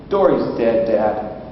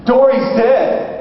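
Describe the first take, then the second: First: Put-on low, matter-of-fact child's answer; deadpan child. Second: High, slow mock alarm; frantic wife. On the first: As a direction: imitate a kid breaking news without any fuss. Daughter calmly reports the death. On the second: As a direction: imitate a panicked wife announcing a disaster. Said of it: "And she's frantic".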